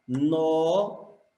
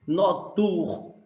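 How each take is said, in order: First: "noturnos" slowly, with "no" held long before the rest; syllables pulled apart. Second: "Notur" cut off after a strong "tur"; stopped on stressed syllable. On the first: Teacher divides the word for the class, "noturnos" slowly in pieces. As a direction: stretch and split "noturnos" by syllable. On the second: Teacher stops counting at tur, "Notur" with its end stressed. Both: Shown as a demonstration. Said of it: "Aí eu parei no tur".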